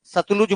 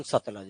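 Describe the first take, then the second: First: सतलुज with an u in the middle, सत-लुज; Satluj said. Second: सतलज with a short a in the middle, सत-लज; Satlaj said. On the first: Teacher to class, giving the spelling सतलुज. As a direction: say सतलुज with a clear u vowel. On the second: Teacher to class, saying how they say सतलज. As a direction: say सतलज with no u sound. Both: Shown as a demonstration. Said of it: "अपन, सतलज बोलते हैं".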